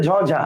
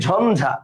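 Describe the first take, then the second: First: ঝ ঝা read letter by letter, no nasal; ঝ ঝা spelled out, not pronounced; spelled-out wrong way. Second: ঝঞ্ঝা said as jhonjha with a dental n; ঝঞ্ঝা the natural spoken way; correct pronunciation. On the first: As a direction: sound out ঝ ঝা as separate letters. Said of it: "আমি কিন্তু বলি না". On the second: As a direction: say ঝঞ্ঝা with a clear n before jha. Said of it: "বলতেছি ঝঞ্ঝা". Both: Shown as a demonstration.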